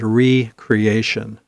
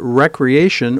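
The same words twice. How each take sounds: First: The first syllable sounds like 'ree'. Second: The first syllable sounds like 'reck'. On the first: Creating oneself anew. "or I like to think of it as recreation. Same word, only one has a hyphen and a different pronunciation" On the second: Leisure activity done for enjoyment. "depends on how you pronounce it"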